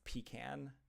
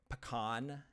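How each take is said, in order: First: It is said the Southern way. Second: It is said the Midwestern way.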